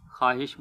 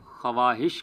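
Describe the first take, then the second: First: خواہش as "khaahish", waw silent; correct pronunciation. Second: خواہش as "khawahish", waw sounded; wrong pronunciation. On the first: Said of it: "خواہش بولنا چاہیے". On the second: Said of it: "خواہش کی بجائے". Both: Shown as a demonstration.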